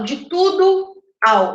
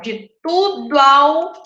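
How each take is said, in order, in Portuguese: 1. As vogais entre palavras ficam separadas. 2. As vogais entre palavras se juntam. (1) "Eu não falo de tudo ao" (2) "eu falo de tudo ao meu"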